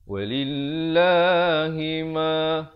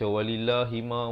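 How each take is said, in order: First: The double l sound is held and pressed. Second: The double l sound is said short. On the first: The speaker calls it right. "tekankan lam itu dia bersabdu" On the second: The speaker calls it wrong. "Dia tak boleh baca"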